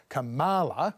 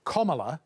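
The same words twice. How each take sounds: First: Kamala with the middle syllable ma stressed, not ka. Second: Kamala said as comma-la, stress on the first syllable KA; phonetic guide pronunciation. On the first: Retold or imitated. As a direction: mimic the Trump-style Kamala, leaning on ma. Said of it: "put the stress on the ma, not the ka". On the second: Shown as a demonstration. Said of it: "the phonetic guide is".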